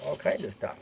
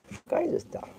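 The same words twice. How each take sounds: First: Said in the usual way. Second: Pet talk. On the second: Real, not acted. Showing the squirrel its food.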